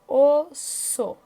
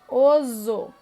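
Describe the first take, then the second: First: The middle consonant is a hissing S sound. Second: The middle consonant is a buzzing Z sound. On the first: The speaker calls it right. "com dois S's, para ter o som de S" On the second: The speaker calls it wrong. "se tivesse um S só"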